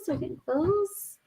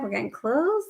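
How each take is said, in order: First: High playful lilt; high teasing singsong. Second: Said in the usual way. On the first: Acted. Repeats line, second take higher.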